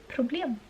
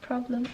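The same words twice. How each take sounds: First: The word is pronounced with Swedish sounds. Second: The word is pronounced with English sounds. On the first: "in Swedish you say problem" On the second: "problem in English"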